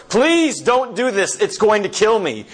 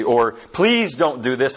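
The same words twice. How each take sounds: First: Desperate plea. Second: Said in the usual way. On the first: Retold or imitated. Spirit begging the angel not to kill it, high and desperate. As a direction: plead for the lizard's life in panic.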